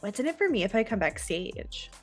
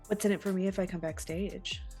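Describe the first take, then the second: First: It is said in a Valley Girl voice. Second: It is said in a normal voice.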